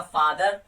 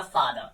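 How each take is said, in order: First: फादर in an American accent, r sounded at the end; American accent, roll the r in फादर; American father. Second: फादर in a British accent, final r dropped; British accent, let फादर end without r; British father. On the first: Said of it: "अगर American बोलेगा". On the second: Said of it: "अगर British बोलेगा". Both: Shown as a demonstration.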